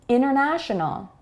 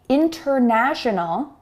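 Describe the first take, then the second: First: The T after the N is dropped. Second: The T after the N is pronounced. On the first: The speaker calls it right. "let's try saying this in a more natural way" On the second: The speaker calls it wrong. "Instead of saying international"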